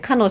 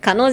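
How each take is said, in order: First: The pitch falls at the end of the word. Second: The pitch rises at the end of the word. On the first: The speaker calls it right. "語尾をちょっとまあ下げて落ち着いて話したら" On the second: The speaker calls it wrong. "じゃなくて"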